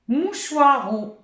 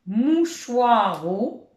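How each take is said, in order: First: Mouchoiro higher and slow, ro hit; teacher showing the game; slow loud demo. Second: Mouchoiro stretched very slowly, rising at the end; teacher repeating slowly; very slow demo. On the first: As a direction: announce mouchoiro slowly. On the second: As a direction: draw out Mouchoiro so kids can hear it. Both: Shown as a demonstration. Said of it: "Si je dis, par exemple".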